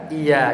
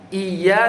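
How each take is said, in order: First: "iya" with one light y; "iya" said i-ya, no doubling; without tasydid. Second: "Iya" with a doubled, held y; with tasydid. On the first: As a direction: glide through "iya" as i-ya. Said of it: "Iya tanpa tasdid". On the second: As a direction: press the y of "Iya": iy-ya. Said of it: "itu beda". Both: Shown as a demonstration.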